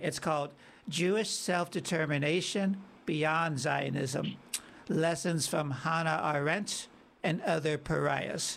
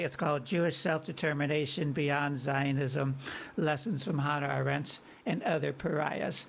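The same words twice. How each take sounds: First: The title is said slowly. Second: The title is said quickly.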